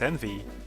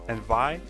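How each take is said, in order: First: The word ends with an 'ee' sound. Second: The word ends with an 'eye' sound. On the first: The speaker calls it right. "it's envy for whatever reason" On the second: The speaker calls it wrong. "I thought it's pronounced envy because you know it has I at the end"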